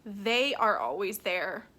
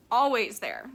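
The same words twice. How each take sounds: First: Said in the usual way. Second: "always" stressed, louder and falling; insistent echo with weight on "always"; emphatic repeat. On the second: Real, not acted. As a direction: lean hard on "always" to reassure.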